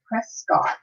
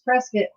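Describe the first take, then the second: First: The ending does not rhyme with biscuit. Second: The ending rhymes with biscuit. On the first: The speaker is not from around here. The speaker calls it wrong. "you say Prescott, you get harassed" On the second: The speaker is from around here. The speaker calls it right. "it's Prescott, like biscuit"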